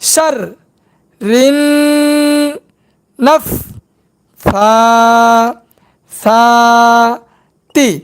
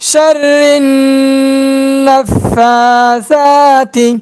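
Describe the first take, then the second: First: Each syllable is said separately with breaks. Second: The syllables are joined into one smooth phrase. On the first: "ভাঙ্গা ভাঙ্গা উচ্চারণ" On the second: "এবার একসঙ্গে"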